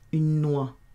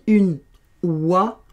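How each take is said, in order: First: The n sound links smoothly into the next word. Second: The two words are said separately, abruptly. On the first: The speaker calls it right. "je fais la liaison" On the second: The speaker calls it wrong. "c'est un petit peu abrupt"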